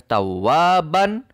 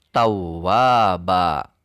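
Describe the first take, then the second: First: The word ends with a -ban ending. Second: The word ends with a long -ba vowel. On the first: This is how the word is written. "Ditulisnya tawwaban" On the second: This is how the word is read at a stop. "maka dibacanya tetap tawwaba"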